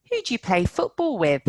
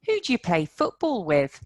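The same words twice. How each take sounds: First: "Who" stressed and quick; stress on who and play football. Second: "Who" stressed, steady pace; stress on who and play football. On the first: Teacher to class, "Who" stressed. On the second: Teacher repeating, stress on "Who". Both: Shown as a demonstration. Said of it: "Who play football with are the words".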